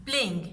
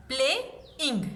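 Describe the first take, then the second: First: Said in the usual way. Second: Play-ing drawn out in two parts; split into syllables. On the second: Shown as a demonstration. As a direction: say playing slowly, syllable by syllable. (playing को धीरे धीरे दो हिस्सों में बोलें) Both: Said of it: "इसको break किया जा सकता है".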